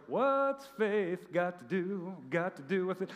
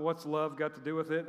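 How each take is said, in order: First: Sung parody. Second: Said in the usual way. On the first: Acted. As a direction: croon it like an eighties pop chorus. Sings altered song line as parody.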